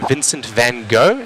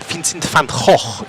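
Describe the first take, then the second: First: The name is said with an American pronunciation. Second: The name is said with a Dutch pronunciation. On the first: "as Americans would say" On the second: "if you are Dutch"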